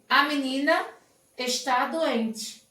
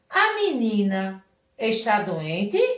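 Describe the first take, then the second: First: It is said with a statement intonation. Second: It is said with a question intonation. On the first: The girl is sick is being asserted. "Ponto. Forma afirmativa" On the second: Whether the girl is sick is being asked. "veja que eu estou fazendo uma pergunta"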